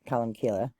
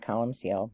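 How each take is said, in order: First: The last syllable begins with a hard k. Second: The last syllable begins with a soft sound. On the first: This is the preferred way to say it. "but Columkille" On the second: This is how some other people say it. "some people pronounce it Columcille"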